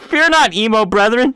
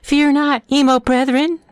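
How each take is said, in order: First: It is read in the speaker's normal voice. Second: It is said in a put-on princess voice.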